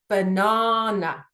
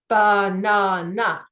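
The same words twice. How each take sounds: First: The stress is on the second syllable. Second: The stress is not on the second syllable. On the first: The speaker calls it right. "the emphasis is on the second syllable" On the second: The speaker calls it wrong. "So I do not say banana"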